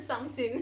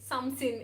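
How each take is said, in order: First: The word is clipped, sounding close to sin. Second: The same.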